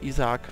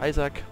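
First: The name is pronounced the German way. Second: The name is pronounced the English way.

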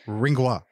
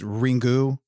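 First: The word ends with a weak schwa sound. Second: The word ends with a full u vowel.

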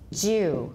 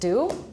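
First: It begins with a J sound. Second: It begins with a plain D sound. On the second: "In American, it's just dew"

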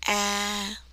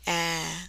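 First: The pitch stays level, neither rising nor falling. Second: The pitch starts low and stays low. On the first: "this is a neutral or flat tone, no up, no down" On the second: "This is a low tone, down tone. You start low and you stay low"

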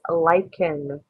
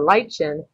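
First: The middle consonant is a hard k sound. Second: The middle consonant is a soft ch sound. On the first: The speaker calls it right. "It's lichen. So it has the hard k sound" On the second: The speaker calls it wrong. "We don't pronounce it lichen"

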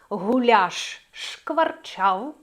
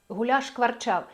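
First: A tiny break separates the two sh sounds. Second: The two sh sounds merge into one. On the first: The speaker calls it right. "Люфт, там не пауза" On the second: The speaker calls it wrong. "але це буде не те"

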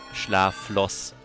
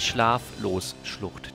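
First: The o in the middle is short. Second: The o in the middle is long. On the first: The speaker calls it wrong. "Ich habe das wie Flosse gelesen" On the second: The speaker calls it right. "Diesmal lese ich es richtig"

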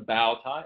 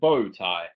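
First: The word 'bow' rhymes with 'cow'. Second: The word 'bow' rhymes with 'go'. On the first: The speaker calls it wrong. "not a bow tie" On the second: The speaker calls it right. "It's a bow tie"

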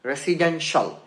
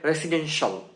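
No difference in how they are said.

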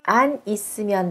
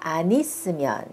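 First: The n is kept separate from the next syllable. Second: The n is linked into the next syllable.

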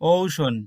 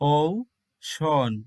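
First: The word is said at normal speed. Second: The word is said slowly and drawn out.

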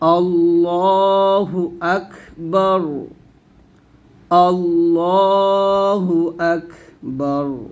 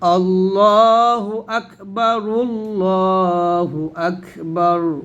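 First: The two phrases are separated by a stop. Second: The two phrases are linked without a stop. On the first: "যদি আমরা থামি তাহলে বলবো" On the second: "অথবা আপনি মিলে পড়তে পারেন"

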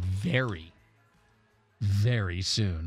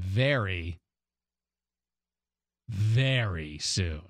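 First: There is a shorter pause between the two verys. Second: There is a longer pause between the two verys. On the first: "Was that enough of a dramatic pause between the two varies?" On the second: "Let me try a longer one"

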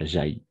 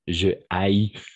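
First: The vowel of je is dropped, with elision. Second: The vowel of je is kept, no elision. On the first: The speaker calls it wrong. "Et pas j'haïs" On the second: The speaker calls it right. "on va dire je haïs"

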